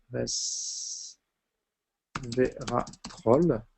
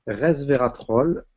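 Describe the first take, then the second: First: Resveratrol drawn out very slowly and softly; very slow dictation. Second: Slowly spelling out Resveratrol; slow dictation. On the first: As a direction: stretch resveratrol out while writing it down. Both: Shown as a demonstration. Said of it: "je vais vous le noter".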